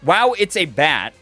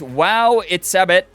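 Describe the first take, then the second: First: The name ends sounding like 'a bat'. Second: The name ends sounding like 'Sebit'. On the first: The speaker calls it right. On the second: The speaker calls it wrong.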